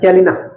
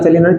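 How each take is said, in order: First: The first vowel sounds like 'e'. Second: The first vowel sounds like 'a'. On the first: The speaker calls it right. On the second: The speaker calls it wrong.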